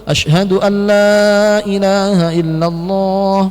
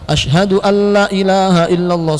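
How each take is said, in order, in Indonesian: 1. 'La' pertama dibaca sangat panjang. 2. 'La' pertama dibaca sangat pendek. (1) "Yang lebih betul ... panjangkan" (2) "Jangan ... salah"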